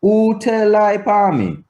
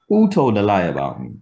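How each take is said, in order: First: WHO TELL LIE UPON ME high and level, falling only on ME; Patois question intonation. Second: Said in the usual way. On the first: Shown as a demonstration. Teacher contrasting Patois with English, high-held question intonation. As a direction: keep WHO TELL LIE up high until the final drop. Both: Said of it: "Completely different intonation between".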